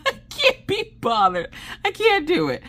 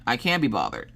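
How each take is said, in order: First: Very high squeal through laughter; real tearful giggling squeak; helpless laughter. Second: Said in the usual way. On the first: Real, not acted. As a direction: wheeze it out, nearly crying with laughing. Repeats it while cracking up.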